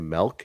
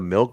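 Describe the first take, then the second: First: The vowel sounds like 'eh', as in 'melk'. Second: The vowel sounds like 'ih', as in 'milk'. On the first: "they say milk ... pronounce it like M E L K" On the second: "instead of milk"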